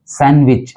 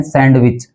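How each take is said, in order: First: सैंडविच as SAN-wich; सैंडविच going straight from N to W; silent D. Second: सैंडविच with a sounded D; सैंडविच as SAND-wich; common mispronunciation. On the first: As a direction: drop the D from सैंडविच. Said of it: "डी जो है वो silent है". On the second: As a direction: pronounce the D in सैंडविच. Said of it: "गलत उच्चारण कर देते हैं". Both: Shown as a demonstration.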